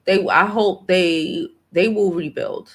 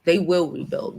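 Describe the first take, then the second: First: Said in the usual way. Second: They will rebuild said as a firm fact. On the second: Shown as a demonstration. Vlogger correcting herself to a firm declaration. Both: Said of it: "I'm not gonna say I hope".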